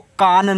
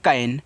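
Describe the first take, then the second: First: The vowel is a long open 'ah' sound. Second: The vowel is a short front 'a' sound. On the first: The speaker calls it wrong. "इसको कान नहीं पढ़ना है" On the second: The speaker calls it right. "ए हो गया आपका कैन"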